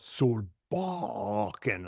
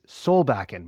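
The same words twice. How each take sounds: First: The name is said in an imitated mispronunciation. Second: The name is said the way the family says it. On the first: A relative who gets the name wrong says it. The speaker calls it wrong. "My mother-in-law still can't pronounce my last name. She goes" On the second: This is how the name's owner says it. The speaker calls it right. "no, it's Solbakken"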